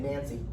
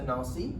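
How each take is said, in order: First: The name is said with an American pronunciation. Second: The name is said with a French pronunciation. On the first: "which is what most of the Americans would say" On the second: "I'm trying to pronounce it Frenchy"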